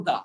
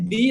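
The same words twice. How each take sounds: First: "the" with a schwa. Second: "the" with an ee vowel; "the" as "dee". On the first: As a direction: say "the" as "thuh". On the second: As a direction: say "the" to rhyme with "see". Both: Shown as a demonstration. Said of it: "দুইটা উচ্চারণ".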